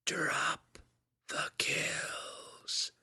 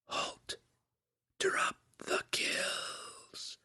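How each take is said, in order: First: Far-off whisper, drop then kills; distant mind voice crying out; whispery telepathic voice. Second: Distant unvoiced whisper, slow; a far-off voice inside the head; whispery telepathic voice. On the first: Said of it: "the telepathic voice cried again". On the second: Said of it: "came another suggestion". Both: A narrator's reading.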